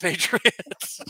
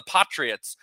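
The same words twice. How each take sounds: First: "Patriots" as PAY-tree-ots, drawn out; usual American pronunciation. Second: "Patriots" as PAT-ree-ots with a short open a; brother-in-law's mispronunciation. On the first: Shown as a demonstration. Correcting brother-in-law's version for host, "Patriots" as PAY-tree-ots. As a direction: stretch "Patriots" slowly with a long ay. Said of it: "not the Patriots". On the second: Retold or imitated. Imitating brother-in-law's favorite team, "Patriots" as PAH-tree-ots. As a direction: say "Patriots" with an ah, not ay. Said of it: "mispronounce ... the way he does".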